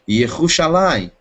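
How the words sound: The R is a strong, guttural double R. This is how people born in Israel say it. "eu vou escutar os judeus nascidos lá falar Yerushalayim"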